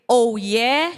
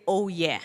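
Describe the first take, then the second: First: Loud rising call. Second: Said in the usual way. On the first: Shown as a demonstration. Speaker demonstrating the call to students, loud and rising. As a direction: throw it out to the crowd. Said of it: "So when I say". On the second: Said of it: "you say".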